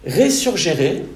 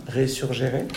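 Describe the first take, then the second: First: "Resurgere" sounded out as Latin, re-sur-ge-re, every syllable pronounced; Latin pronunciation. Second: Said in the usual way. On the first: Shown as a demonstration. Pastor giving the church the Latin root, careful Latin "Resurgere". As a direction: say "Resurgere" like a Latin word, each syllable clear. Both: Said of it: "pas si mon accent est formidable".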